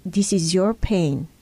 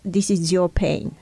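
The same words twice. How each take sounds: First: "your" stressed, said slowly with a falling tune. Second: "this" leaned on, pain kept at arm's length; stress on this. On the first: Speaker showing how to own another's pain, slow stress on "your". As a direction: lean gently on "your" and take it slow. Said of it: "I say". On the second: Speaker showing the detached view of another's pain, stress on "this". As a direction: hit "this" and let "is your pain" fall away. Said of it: "I don't see your pain as". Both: Shown as a demonstration.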